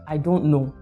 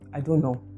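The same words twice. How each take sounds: First: It sounds rude and uninterested. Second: It sounds flat with no emotion. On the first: The speaker may know but will not share the answer. "that means that I'm rude, I'm uninterested" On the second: The speaker inspires no confidence. "It sounds flat, it doesn't convey any emotion"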